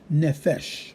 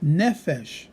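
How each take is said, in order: First: The stress is on the last syllable. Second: The stress is on the first syllable. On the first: The speaker calls it wrong. "not nefesh" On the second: The speaker calls it right. "When we see that it puts it on the first, we would say nefesh"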